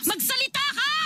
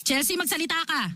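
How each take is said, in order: First: High, sharp cry of a demand; pleading order pitched high; desperate demand. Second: Said in the usual way. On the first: Acted. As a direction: force her to answer, voice jumping up.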